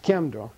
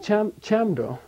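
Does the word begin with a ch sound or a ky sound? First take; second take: ky; ch. First: It begins with a ky sound, Central dialect. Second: It begins with a ch sound, regional accent. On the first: "The modern pronunciation of this word in Central Tibetan dialect" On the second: "they'll say Chamdo. Because that's their accent"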